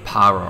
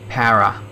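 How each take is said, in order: First: It is said with a foreign pronunciation. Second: It is said with an Australian pronunciation. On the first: This is how the listeners might say it. "I guess you guys say something like para" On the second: This is how locals say it. "That's how we would say para"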